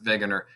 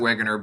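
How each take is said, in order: First: The name begins with a V sound. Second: The name begins with a W sound. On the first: This is the way the German owner of the name says it. "but he would pronounce it Wegener" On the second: This is the way English speakers would say it. "it's a W, but he's German, so you could pronounce it Wegener"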